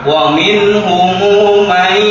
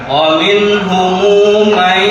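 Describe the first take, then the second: Both takes have the same delivery.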